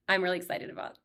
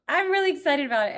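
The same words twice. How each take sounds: First: Said in the usual way. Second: Higher, louder, fast excited restart; burst of excitement. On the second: Real, not acted. Vlogger to viewers, restarting with a quick excited burst. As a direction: throw the line out with a sudden rush of joy.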